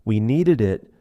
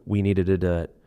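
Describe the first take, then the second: First: NEEDED IT said carefully, louder, each word clear; separated words. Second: NEEDED IT run on, "needed-id-it"; linked ending. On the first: Teacher showing the form before linking, NEEDED IT unlinked. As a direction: give WE NEEDED IT in full, loud and careful. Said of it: "Instead of". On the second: Teacher showing what learners might hear, NEEDED IT linked. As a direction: let the ED of NEEDED spill into IT. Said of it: "the linking continues". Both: Shown as a demonstration.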